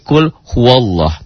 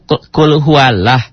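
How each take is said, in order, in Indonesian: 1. 'Lah' dibaca tebal, terdengar seperti 'loh'. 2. 'Lah' dibaca tipis, dengan vokal 'a'. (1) "tapi la-nya berbunyi o, jadi kul huwallah" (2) "harusnya kan kul huwallah"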